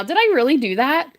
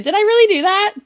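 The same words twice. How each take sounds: First: Said in the usual way. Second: "really" lifted high and louder in delight; excited disbelief. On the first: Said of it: "in shock right now". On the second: Real, not acted. Streamer asking her chat about her subscriber goal, excited and higher. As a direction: ask "Did I really do that?" bursting with joy. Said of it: "I am so excited".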